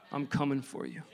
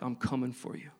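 First: Low, soft, set apart from the first take; God's voice, echoed. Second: Low, soft voice of God closing in; quiet and low, a promise that God is coming; God's voice. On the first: Preacher repeating God's call to him, low and hushed. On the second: Preacher voicing God's quiet pursuit, low and soft. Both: Retold or imitated. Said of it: "that God was like".

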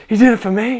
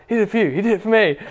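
First: Loud, high joyful cry of realisation; excited realisation. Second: Fast, high back-and-forth chant; chanted, rattle it off high and quick like a celebration; excited chant. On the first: Friend finally grasping the gospel, crying out in joy. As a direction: let it burst out, high and loud. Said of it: "started being like". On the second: Two friends chanting in joy on the wharf. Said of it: "we were just like". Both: Retold or imitated.

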